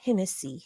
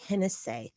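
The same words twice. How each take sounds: First: The name ends with a plain 'see' sound. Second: The name ends with an 'essay' sound. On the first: The speaker calls it wrong. "not Hennessy" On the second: The speaker calls it right. "E S S A Y"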